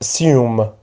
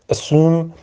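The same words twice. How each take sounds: First: سیوم as "uh-SYOOM", with a y-glide; second accepted pronunciation. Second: اسوم as "uh-SOOM", with a plain "oo"; first accepted pronunciation. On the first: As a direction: say سیوم with "yoo" after the s. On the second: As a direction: say اسوم with no y-glide after the s. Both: Shown as a demonstration. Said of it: "جفتش هم تلفظش درسته".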